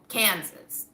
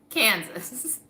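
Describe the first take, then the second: No difference in how they are said.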